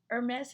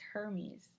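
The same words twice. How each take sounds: First: It is said like the fashion brand name. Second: It is said unlike the fashion brand name. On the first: "Hermes is the bag" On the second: "I've always pronounced this Hermes"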